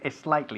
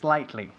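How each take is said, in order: First: An extra vowel sound comes before the S. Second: The word starts directly with the S sound. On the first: The speaker calls it wrong. "We don't say es slightly" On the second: The speaker calls it right. "We say slightly"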